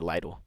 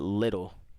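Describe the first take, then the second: First: It sounds different from the word little. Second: It sounds exactly like the word little. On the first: The speaker calls it right. "I'm gonna say Lidl" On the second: The speaker calls it wrong. "People say it's little, but I'm not gonna call it little"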